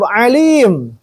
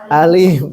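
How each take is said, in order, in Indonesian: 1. Alim diawali dengan bunyi ain dari tenggorokan. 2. Alim diawali dengan hamzah biasa. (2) "Azab itu alim"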